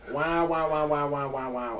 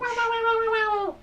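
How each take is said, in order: First: It is said in a normal man's voice. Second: It is said in a high-pitched Yoshi voice.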